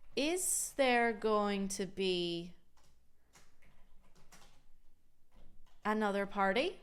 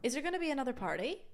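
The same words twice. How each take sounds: First: Going to is said fully and carefully. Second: Going to is reduced to gonna. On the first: The speaker calls it wrong. "that's not exactly how I would say it" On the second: The speaker calls it right. "you need to use that gonna if you want to sound natural and native"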